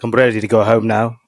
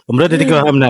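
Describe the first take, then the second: First: It is said in an English accent. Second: It is said in a Scottish accent.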